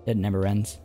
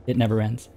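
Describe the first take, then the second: No difference in how they are said.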